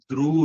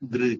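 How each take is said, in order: First: The syllable ends in an u vowel. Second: The syllable ends in an i vowel. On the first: The speaker calls it wrong. "துரு இல்ல" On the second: The speaker calls it right. "திரு உதடு விரிச்சு சொல்லணும்"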